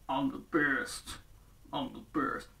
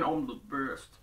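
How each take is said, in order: First: Low, soft, slow gloating mumble; a bully muttering to himself; smug muttering. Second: Low soft catchphrase callback; quoted catchphrase. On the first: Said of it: "Don't matter". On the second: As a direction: recall a cartoon line. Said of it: "do any of you remember that thing?". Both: Retold or imitated.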